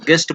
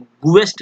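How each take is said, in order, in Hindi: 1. g ध्वनि के बाद u की ध्वनि नहीं आती है। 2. g ध्वनि के बाद u की ध्वनि आती है। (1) "यू जो होता है साइलेंट होता है" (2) "गुएस्ट नहीं बोला जाता है"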